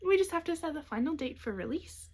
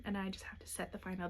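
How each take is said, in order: First: Said in the usual way. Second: Softly, nearly whispered; quiet half-whisper. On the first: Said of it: "the hiccups". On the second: Real, not acted. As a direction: drop to a soft near-whisper. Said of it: "Pardon me, the hiccups".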